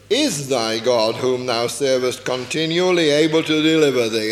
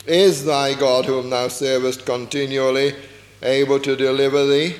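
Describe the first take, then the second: First: A hint of a worried king calling into the den; lamentable voice. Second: Lower, hesitant lament; mild doubting plea into the den; lamentable voice. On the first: King calls anxiously into the lions' den, lamenting. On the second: Acted. King calls to Daniel in the den, mildly lamenting. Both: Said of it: "he said it in a lamentable voice".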